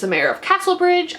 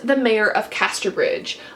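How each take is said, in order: First: The town name begins with the sound 'Castle'. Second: The town name begins with the sound 'Caster'. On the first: The speaker calls it wrong. "I often mispronounce this as" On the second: The speaker calls it right. "I am getting it right this time"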